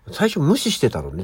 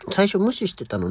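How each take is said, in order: First: Said in the usual way. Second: Fast self-quote. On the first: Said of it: "最初無視してたのねっていうぐらい". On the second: Shown as a demonstration. Host quickly repeating her own words about ignoring the cat, fast. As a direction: rattle the phrase off fast. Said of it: "っていうぐらい".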